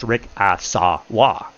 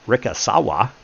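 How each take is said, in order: First: Rikasawa slowly, each syllable given equal weight; equal syllable stress. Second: Said in the usual way. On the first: Shown as a demonstration. Explaining how the Japanese speak, Rikasawa slow with every syllable equal. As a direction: split Rikasawa into evenly enunciated, separated syllables. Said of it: "Every single syllable has the same level of enunciation". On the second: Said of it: "Every single syllable has the same level".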